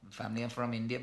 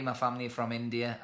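First: Light Indian accent on Family are from India; a brief, understated Indian English lilt. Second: Said in the usual way. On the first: Shown as a demonstration. Showing viewers how his family doesn't talk, Indian accent. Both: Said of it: "but we don't talk like this".

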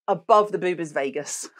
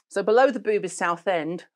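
First: "above" leaned on in contrast; stress on above. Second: "below" lifted and leaned on; stress on below. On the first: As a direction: punch "above" against the first line. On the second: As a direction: hit "below" to set it against above. Contrasting below and above. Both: Real, not acted.

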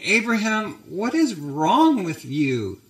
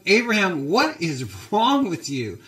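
First: Mildly acted hurt, high start slowing down; hurt Sarah. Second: Higher-pitched, exasperated rebuke, acted out; angry Pharaoh. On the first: Wife confronting Abraham after being pawned off, mildly hurt. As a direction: lightly play a wounded, disbelieving wife. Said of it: "Look at her sadness". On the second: Pharaoh confronting Abraham over his lie, angry. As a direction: play an indignant ruler telling someone off. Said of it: "Pharaoh's angry. He's going".

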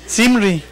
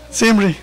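First: "Simri" said the Spanish way, with a pure i; standard pronunciation of Simri. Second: "Simri" in a lightly pocho, Anglicized Spanish; half-pocho accent. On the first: Teacher corrects how hermano José says the name, standard "Simri". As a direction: say "Simri" without an accented I. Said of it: "porque no tiene acento en la I". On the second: Teacher echoes the class's pocho version, pocho-accented "Simri". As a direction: say "Simri" with a Spanglish tinge. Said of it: "con tono así medio pocho". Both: Shown as a demonstration.

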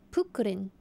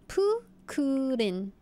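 First: Said in the usual way. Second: "Pukurin" drawn out, syllable by syllable; slow sounding out. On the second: Shown as a demonstration. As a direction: read "Pukurin" slowly like a beginner. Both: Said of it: "What is Pukurin?".

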